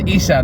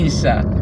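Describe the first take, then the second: First: It starts with a plain vowel. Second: It starts with a throaty 'ain' sound. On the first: The speaker calls it wrong. "bukan Isa" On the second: The speaker calls it right. "huruf Ain. Jadi bukan Isa tapi Isa"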